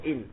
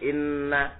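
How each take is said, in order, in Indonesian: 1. Diucapkan ringan, dengan satu n pendek. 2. Diucapkan dengan tegas, dengan bunyi n ganda. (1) "sekarang slow in gitu aja" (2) "Yang dulu kencang ono tasdite"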